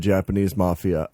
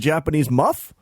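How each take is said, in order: First: The last word is said with three syllables. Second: The last word is cut to one syllable. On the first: "simply refer to them as the Japanese Mafia" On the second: "he kept pronouncing it as the Japanese muff"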